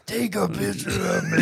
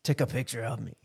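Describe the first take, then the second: First: High shouted Arnold voice; angry Arnold. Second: Soft lightly voiced Arnold; a hint of Arnold, quietly; Arnold impression. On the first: Retold or imitated. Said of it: "sound angry". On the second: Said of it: "That's my Arnold".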